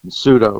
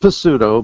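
First: The word starts with an S sound. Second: The word starts with a P sound. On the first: The speaker calls it right. "there's the silent P" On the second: The speaker calls it wrong. "some people, if they don't know better, might say pseudo"

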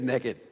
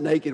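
First: It is said with a Southern US pronunciation. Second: It is said with a standard American pronunciation. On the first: "down south, we call it. We say naked" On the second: "We don't pronounce it naked"

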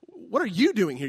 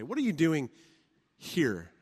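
First: The stress is on you. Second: The stress is on here.

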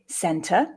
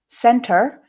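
First: The final r is not pronounced. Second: The final r is a post-alveolar sound. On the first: "non-rhotic center, which is what I would say" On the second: "center in the post-alveolar space, you can hear that r coming through"

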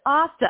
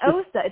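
First: The name rhymes with pasta. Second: The name does not rhyme with pasta. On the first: The speaker calls it right. "it's Osta, like Osta like pasta" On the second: The speaker calls it wrong. "not Osta"

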